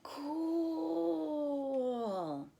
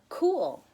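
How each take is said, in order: First: The vowel is stretched out extremely long. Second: The vowel is stretched out somewhat long.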